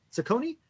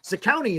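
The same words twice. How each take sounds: First: "Zacconi" with a long o, za-CO-nee, rising; alternative pronunciation. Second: "Zacconi" with an "ow" middle, za-COW-nee; tentative pronunciation. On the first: Host trying another version of the name, questioning pronunciation. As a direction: softly ask "Zacconi" with CO as the middle syllable. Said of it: "Not sure how you pronounce his name". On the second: Host guessing at a player's name, tentative pronunciation. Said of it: "is that how you say it?". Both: Real, not acted.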